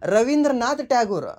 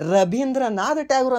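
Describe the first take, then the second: First: The name is said with a v sound. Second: The name is said with a b sound. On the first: "ಇಷ್ಟೇ ಕೇಳ್ತೀರಾ ನೀವು?" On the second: "ಅಂತ ಕೂಡ ಕೇಳಿರ್ತೀರ"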